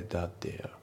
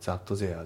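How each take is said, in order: First: THAT THERE blended as "dad-ea"; light D sounds in THAT THERE, R dropped; linked pronunciation. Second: THAT THERE said as "zatto zea"; katakana-style pronunciation. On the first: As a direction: run THAT THERE together, British style. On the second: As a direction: Japanese Z and added vowel in THAT THERE. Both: Shown as a demonstration. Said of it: "じゃなくて".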